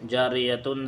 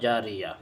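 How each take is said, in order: First: The word ends with a 'tun' sound. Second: The word ends on a plain vowel. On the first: The reader continues without stopping here. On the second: The reader stops on this word.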